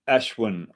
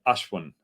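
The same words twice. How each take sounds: First: The name is said with an anglicized Western pronunciation. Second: The name is said with its native Indian pronunciation. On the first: This is how Westerners tend to say it. The speaker calls it wrong. "with Westerners, ... we say it like that" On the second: This is how the name should be said. The speaker calls it right. "rather than"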